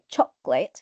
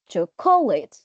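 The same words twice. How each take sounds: First: The stress is on the first syllable. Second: The stress is on the second syllable. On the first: The speaker calls it right. "this is the right one according to the dictionary" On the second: The speaker calls it wrong. "so you stress the second syllable, which is incorrect"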